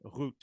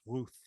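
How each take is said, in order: First: The name ends with a plain 't' sound. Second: The name ends with a 'th' sound. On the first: The speaker calls it right. "We're going to pronounce it Ruth" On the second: The speaker calls it wrong. "We're not going to pronounce this Ruth"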